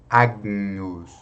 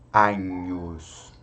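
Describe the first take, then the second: First: A soft G is heard before the N. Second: No G is heard before the N. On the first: "nós podemos pronunciar o G, só que de forma bem suave" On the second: "você pode tirar o G e pronunciar apenas como Agnus"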